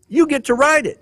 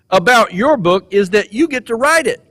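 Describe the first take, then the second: First: "You" jumps much higher, then falls on "write it"; stress on You. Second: Said in the usual way. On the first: Acted. Speaker telling graduates they write their story, stress on "You". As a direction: hit "You" hard up top, then let "You get to write it" drop. Speaker repeats the line for emphasis.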